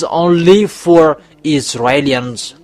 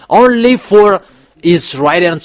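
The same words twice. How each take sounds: First: Said in the usual way. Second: Emphatic raised "only"; stress on "only". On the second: Shown as a demonstration. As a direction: lift and hit "only", then pause before "Israelians". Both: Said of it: "I emphasize well".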